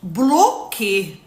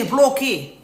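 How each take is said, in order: First: "بلوكي" stretched very slowly and loud, falling; slow emphatic repeat; drawn-out command. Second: "بلوكي" said firmly, falling; loud blunt command. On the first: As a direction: drag out "بلوكي" slowly and firmly. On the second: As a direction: snap "بلوكي" as an order. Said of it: "ما تعيطيش ليه". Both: Shown as a demonstration.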